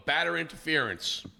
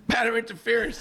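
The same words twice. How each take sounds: First: Said in the usual way. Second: "Batter interference" pitched high, rising in disbelief; incredulous repeat. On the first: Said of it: "they go". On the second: Real, not acted. Mocking the umpires' call to cohost, incredulous. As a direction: echo the call like it's absurd.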